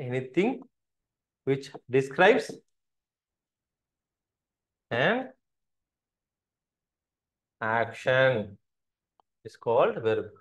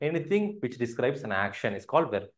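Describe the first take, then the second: First: Very slow, long gaps before "an" and "action"; halting pace, as if writing along; word-by-word dictation. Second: Said in the usual way. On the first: Shown as a demonstration. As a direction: dictate it in small pieces for note-taking. Dictates the definition in pieces.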